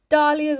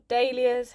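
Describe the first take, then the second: First: "dahlias" said DAH-lee-uhz; first pronunciation variant. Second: "dahlias" said DAY-lee-uhz; alternative pronunciation. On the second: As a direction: say "dahlias" with an ay in the first syllable. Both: Shown as a demonstration. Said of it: "however you wanna say it".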